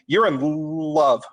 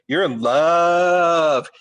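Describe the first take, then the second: First: It is said plainly, without exaggeration. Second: It is said mockingly, with exaggerated emotion. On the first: "you naturally don't say" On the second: "You say"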